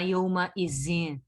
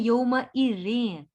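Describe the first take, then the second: First: The middle consonant is a buzzing z sound. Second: The middle consonant is a soft th sound. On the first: The speaker calls it wrong. "ऐसे नहीं पढ़ना। ... जे नहीं है ये।" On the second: The speaker calls it right. "तो ये है"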